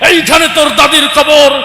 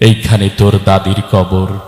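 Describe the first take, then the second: First: It is recited loudly, like a fiery speech. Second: It is recited in a calm, measured way. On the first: The speaker calls it wrong. "রাজনীতির মঞ্চে গরম বক্তব্য দিয়ে অভ্যাস" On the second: The speaker calls it right. "সে মোটামুটি ভালো আবৃত্তি করতে পারে"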